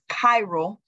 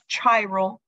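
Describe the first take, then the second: First: It begins with a k sound. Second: It begins with a ch sound. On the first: The speaker calls it right. "it's chiral" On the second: The speaker calls it wrong. "this is not pronounced chiral"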